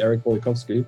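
The name is said with English pronunciation. "In English, we would just say"

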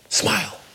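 The word is said in a whisper. A gentle, quiet request. "she whispered it"

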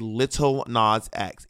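Lil is pronounced with a British accent. The speaker calls it wrong. "In America, we don't say Lil Nas X"

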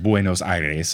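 It is pronounced the Spanish way. The name is said as in its own language. "pronounce a city properly if it's in a different language"

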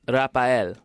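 The name is said the Filipino way. "in the Philippines, they're like Rafael"

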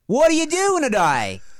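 It is said in an Australian-like accent.

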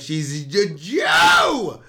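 It sounds contemptuous, like a slur.

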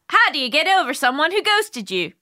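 It is read in a slightly Irish-sounding accent. "A little Irish"

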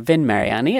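The name has an American-style pronunciation.

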